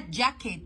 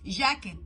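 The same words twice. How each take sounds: First: It begins with a d-like j sound. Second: It begins with a hard g sound. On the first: The speaker calls it right. "لكن ده جاكيت" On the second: The speaker calls it wrong. "بص هو يقول لك جاكيت جاكيت"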